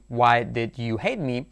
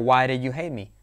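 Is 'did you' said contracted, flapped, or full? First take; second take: full; flapped. First: Each word of 'did you' is said fully. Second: The d in 'did' sounds like a soft r. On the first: "sin contraer de ninguna manera" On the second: "vamos a hacer la D como R suave"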